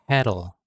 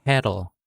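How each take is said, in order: Both takes have the same delivery.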